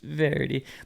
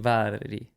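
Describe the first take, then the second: First: The name is pronounced the English way. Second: The name is pronounced the Hungarian way. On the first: The speaker calls it wrong. "just say Verity" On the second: The speaker calls it right. "It'd be Váradi"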